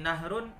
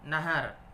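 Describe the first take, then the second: First: The h is followed directly by r, no vowel. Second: The h is followed by an a vowel. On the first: "Seperti nahrun" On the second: "dua-duanya boleh"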